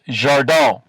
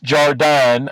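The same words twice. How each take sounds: First: The name is said with French sounds. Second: The name is said with English sounds. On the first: The speaker calls it right. "I think it's Jardin" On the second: The speaker calls it wrong. "I don't think it's Jardin"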